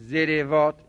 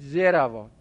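First: The r is followed by an i vowel. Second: The r is followed by an a vowel. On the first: The speaker calls it wrong. "عین الفعل حق دارد تبعیت از فاعل فعل بکند" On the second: The speaker calls it right. "عین الفعلش را فتحه بدید"

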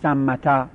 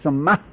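First: The word ends with a voiced t and vowel. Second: The word ends with an h sound. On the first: The word continues into following speech. "گاهی با آخرش میاره میگن سمتا" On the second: The speaker pauses on this word. "اندل وقف تاش قلب ها میکنیم، میگیم سمه"

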